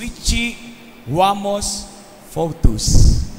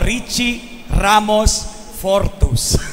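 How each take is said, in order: First: The R sounds are said like W. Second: The R sounds are said as clear R. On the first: This is the childhood speech problem the class laughed at. The speaker calls it wrong. "Yung letter R ko po ay aw. Nagiging W" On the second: This is the real name as it should sound. The speaker calls it right. "pangalo ko po"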